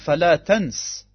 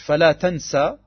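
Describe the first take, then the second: First: The second word ends in a short vowel. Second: The second word ends in a long vowel. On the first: It is a command not to do something. "Nur mit Fatha" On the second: It states that something will not happen. "vergiss nicht heißt nicht fala tansa"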